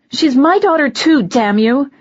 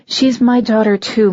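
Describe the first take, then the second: First: High, loud furious shout; angry outburst. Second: Said in the usual way. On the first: Acted. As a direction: snap and yell it at him. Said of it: "Something inside me snapped".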